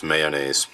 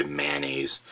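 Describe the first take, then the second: First: Mayonnaise said his own odd way; mayonnaise in his personal pronunciation. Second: Mayonnaise said the usual way most people do; the standard everyday mayonnaise; common mayonnaise. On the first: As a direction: say mayonnaise the way he insists on. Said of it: "I actually pronounce this mayonnaise". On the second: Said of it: "Most people say mayonnaise". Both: Shown as a demonstration.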